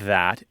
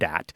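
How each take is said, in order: First: The word begins with a soft th sound. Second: The word begins with a hard d sound. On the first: "words like these and that" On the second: "as D's and dat"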